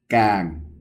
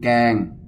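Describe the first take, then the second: First: The syllable is said with the mai ek tone. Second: The syllable is said without a marked tone.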